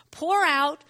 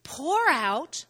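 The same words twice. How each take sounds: First: "pour" punched louder and higher; stronger stress on pour. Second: "pour" leaned on, rising; stress on pour. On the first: Preacher repeating the call, punching "pour" louder. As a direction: hit "pour" harder the second time. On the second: Preacher urging the church to pour out, stressing "pour". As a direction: press the word "pour" out. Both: Shown as a demonstration. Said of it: "So he's saying".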